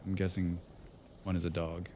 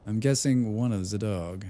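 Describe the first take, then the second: First: Reading it softly, deadpan; quiet, low-key read of the line; quiet first read. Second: Repeating it through a laugh. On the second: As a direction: giggle as you read it again. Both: Real, not acted.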